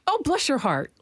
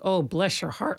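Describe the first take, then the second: First: It sounds sweetly and mildly patronizing. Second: It sounds heavily pitying and dismayed. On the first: The listener is being called special in a condescending way. "Like, oh, you're special" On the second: The listener is in serious trouble and needs prayer. "Like, girl, you need prayer"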